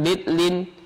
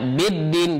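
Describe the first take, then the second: First: An l sound is heard after the d. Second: The middle consonants merge into a doubled d. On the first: The speaker calls it wrong. "jangan bidlin" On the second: The speaker calls it right. "Contohnya biddin"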